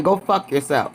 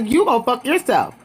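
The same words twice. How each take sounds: First: Said in the usual way. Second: "You" hit high, then falling away; retold comeback with a high, emphatic "You"; stress on YOU. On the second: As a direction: throw it straight back, punching "You". Retort thrown straight back.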